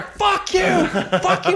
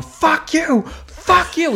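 First: Very high-pitched mock yell; louder imitated yelling. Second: High-pitched mock yell of a heckler; imitated yelling. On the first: Kid yelling back at a comic who feigns deafness, escalating mock yell. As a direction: push the heckler imitation higher and more frantic. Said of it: "he would yell louder". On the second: Angry kid heckling the comic from the front, imitated yelling. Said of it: "yelling at me".

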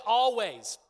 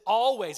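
First: "Always" called out loud for the crowd to repeat; stressed Always. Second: "Always" said louder and punched; stressed Always. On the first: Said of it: "Everybody say". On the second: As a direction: hit "Always" hard. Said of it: "it says". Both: Shown as a demonstration.

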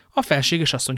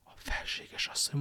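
First: Said in the usual way. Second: Hushed, voiceless echo of the words; stunned whisper. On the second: A narrator's reading. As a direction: whisper it as if about to faint. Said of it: "és úgy elsápadt".

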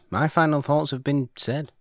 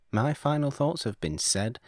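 First: Raised, emphatic declaration on final; grand pronouncement. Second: Said in the usual way. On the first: Shown as a demonstration. Host closing his review with a grand pronouncement. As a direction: announce it like a verdict. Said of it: "repeated line, first take". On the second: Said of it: "repeated line, second take".

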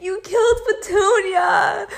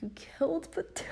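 First: High, loud, over-the-top crying wail; mock the dramatic grief of a movie girl; movie heroine wailing over her wrecked pink car, dramatic sobbing shout. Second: Breathless whispered disbelief; to the driver who wrecked her car, a shocked whisper; stunned whisper. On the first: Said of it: "And it was all dramatic". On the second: Retold or imitated. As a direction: hush it like you can't believe it. Stunned question to the other driver.

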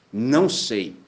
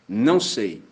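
The two takes are said the same way.

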